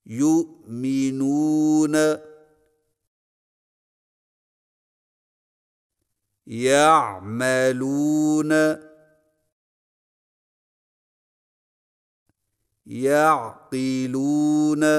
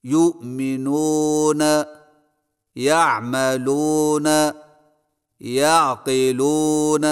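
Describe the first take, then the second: First: يُؤْمِنُونَ and يَعْقِلُونَ with a pure long oo; correct long oo. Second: یؤمنون، یعملون، یعقلون said with an o vowel, not oo; wrong majhul vowel. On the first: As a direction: stretch the oo in يَعْمَلُونَ, pure and round. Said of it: "صحیح تلفظ کے ساتھ ادا کیجیے". (واو معروف کے ساتھ صحیح ادائیگی) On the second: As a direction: say یعملون with an open o sound, the wrong way. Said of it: "واو کو ایسے مجہول پڑھنا". (واو مجہول کے ساتھ غلط ادائیگی) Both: Shown as a demonstration.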